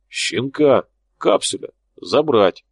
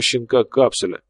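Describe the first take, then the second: First: Flat robot monotone; talking doll monotone. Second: Said in the usual way. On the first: Acted. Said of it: "монотонным голосом робота сказал Тополь". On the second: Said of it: "монотонным голосом робота".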